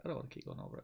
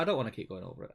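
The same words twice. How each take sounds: First: Whispered. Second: Said in the usual way. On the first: Shown as a demonstration. Tired of the topic, whispered aside to himself. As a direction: drop to a whisper. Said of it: "They keep dragging me back in". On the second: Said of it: "repeated as a whisper".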